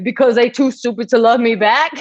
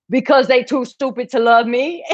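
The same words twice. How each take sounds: First: High, slurred dopey reading; dumb guy voice. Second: High, slurred dopey voice reading the comment; dumb guy voice. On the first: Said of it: "That's how I heard it". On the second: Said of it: "this is how I heard it". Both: Retold or imitated. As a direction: read it like a clueless lovesick guy.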